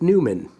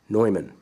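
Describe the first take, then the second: First: The name is said the English way. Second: The name is said the German way. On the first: "often I will hear people say Newman" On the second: "the name of the company is German ... it is pronounced Neumann"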